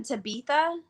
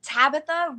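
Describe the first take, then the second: First: TABITHA as "ta-BEE-tha"; mispronounced name. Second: Said in the usual way. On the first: Retold or imitated. Host quoting how her name gets butchered, Tabitha said ta-BEE-tha. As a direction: stress the middle of Tabitha, with a long ee. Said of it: "sometimes I've gotten Tabitha". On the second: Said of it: "rarely gets butchered".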